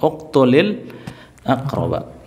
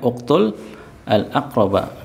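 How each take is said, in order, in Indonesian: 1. Vokal 'i' menyambungkan uktul ke kata berikutnya. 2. Uktul berakhir tanpa vokal sebelum kata berikutnya. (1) "Kalau mau disambung sukun yang pertama itu dikasrohkan"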